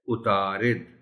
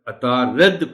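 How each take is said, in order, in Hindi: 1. यह 'u' से शुरू होता है और -id पर खत्म होता है। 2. यह 'a' से शुरू होता है और -ad पर खत्म होता है। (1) "सही लफ्ज है उतारिद" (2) "रे को जबर के साथ और ऐन को भी जबर के साथ"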